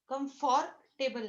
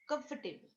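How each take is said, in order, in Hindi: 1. comfortable में बीच का o उच्चारित होता है। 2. comfortable में बीच का o साइलेंट है। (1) "कम्फॉर्टेबल नाही" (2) "ओ सायलेंट आहे"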